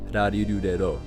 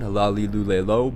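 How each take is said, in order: First: The consonants sound between an English L and R. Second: The consonants sound like a clear English L. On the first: "don't quite touch the tip of your tongue to the top of your mouth" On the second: "just say them with the L sound"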